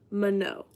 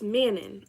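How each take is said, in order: First: It is said as ma then no, ending on o. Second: It is read the English way, ending with n. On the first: The speaker calls it right. "you pronounce it like ma and then no" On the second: The speaker calls it wrong. "clearly it was wrong"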